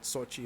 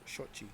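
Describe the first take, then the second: First: The word begins with a plain s sound. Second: The word begins with an sh sound. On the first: The speaker calls it wrong. "it's not Sochi" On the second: The speaker calls it right. "The X is pronounced with the sh- with the S H"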